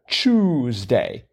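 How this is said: It starts with a 'ch' sound, Canadian style.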